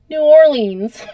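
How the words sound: The city name is said with American English sounds. "we say it like Americans"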